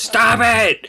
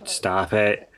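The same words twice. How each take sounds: First: It is said loudest of all. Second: It is said louder than before.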